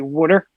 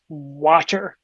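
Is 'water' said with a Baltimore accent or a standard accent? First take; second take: Baltimore; standard. First: It is said with a Baltimore accent. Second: It is said with a standard accent. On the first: The speaker calls it wrong. "the Baltimore pronunciation" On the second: The speaker calls it right. "no, it's water"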